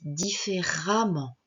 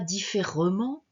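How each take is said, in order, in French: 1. La voyelle avant '-ment' se prononce comme A. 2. La voyelle avant '-ment' se prononce comme E. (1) "on dit différemment. On va prononcer le E, on va le prononcer A" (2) "On ne dit pas différemment"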